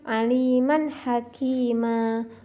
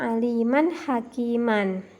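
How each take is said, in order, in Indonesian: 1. Kata terakhir berakhir dengan vokal panjang biasa. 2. Kata terakhir berakhir dengan bunyi -an yang ditambahkan. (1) "Contoh yang berikutnya" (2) "bukan dibaca"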